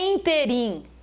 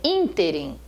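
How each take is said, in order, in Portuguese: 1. A sílaba tônica está na segunda sílaba. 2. A sílaba tônica está na primeira sílaba. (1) "Não é interim" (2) "ela é uma pro paroxítona"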